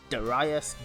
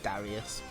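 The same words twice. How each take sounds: First: The name is said with a Japanese pronunciation. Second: The name is said with an English pronunciation. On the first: The speaker calls it right. "I looked up the Japanese pronunciation" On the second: The speaker calls it wrong. "I instinctively tried to pronounce it Darius"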